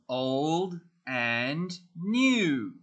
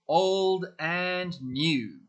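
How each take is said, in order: First: It is said at a normal pace. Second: It is said a little faster.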